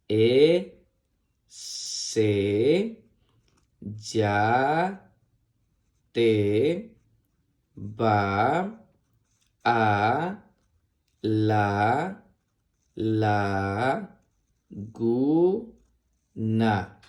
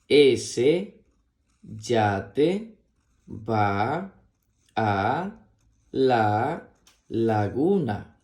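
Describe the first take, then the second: First: It is read slowly, one syllable at a time. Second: It is read faster, word by word.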